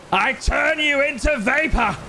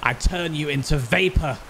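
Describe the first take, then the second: First: Much higher, hammy evil threat; menacing villain voice. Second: Said in the usual way. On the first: Acted. Taunting the arrogant foe in a high villain voice. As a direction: boom it out like a gloating overlord.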